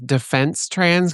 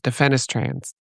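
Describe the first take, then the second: First: The name is said with three syllables. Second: The name is said with four syllables. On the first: The speaker calls it wrong. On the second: The speaker calls it right. "the E and the S are flipped, so it's defenestrans"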